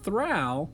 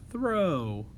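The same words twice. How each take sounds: First: The vowel sounds like 'ow' in cow. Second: The vowel sounds like 'oh' in go. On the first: This is not a real word. The speaker calls it wrong. "throw is not a real word" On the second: This is the real word. The speaker calls it right. "er, oh, throw"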